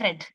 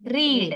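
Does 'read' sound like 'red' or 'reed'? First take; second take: red; reed. First: The word sounds like 'red', with a short vowel. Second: The word sounds like 'reed', with a long vowel. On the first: The action happened in the past. "പറയുമ്പോ റെഡ്" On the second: It is the base form after didn't. "അവിടെ റീഡ് ആണ്"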